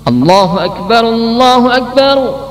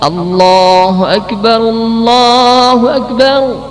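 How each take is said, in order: First: The long vowel in Allah is cut short. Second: The long vowel in Allah is fully held. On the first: The speaker calls it wrong. "memendekkan lafaz Allah ... tapi dibaca pendek" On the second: The speaker calls it right.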